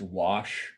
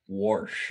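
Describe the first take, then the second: First: It is said plainly, with no r sound. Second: It is said with an r sound before sh.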